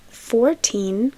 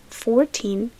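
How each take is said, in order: Both takes have the same delivery.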